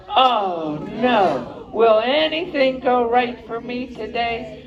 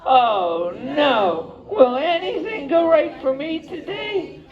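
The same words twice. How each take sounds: First: High, slow, hammed-up whine of bad luck; woeful lament. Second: Much higher, dramatic wail of bad luck; woeful lament. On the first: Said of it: "So he just had to say". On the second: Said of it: "And he went". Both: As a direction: moan it like a sorry little cub.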